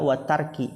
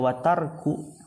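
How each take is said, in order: First: The word ends with an 'i' vowel. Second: The word ends with an 'u' vowel. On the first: The word is joined to the worship being commanded. "Bisa juga watarki, ataf ke ibadati" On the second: The word is joined to the command itself. "bisa dibaca watarku, berarti dia ataf ke amrun"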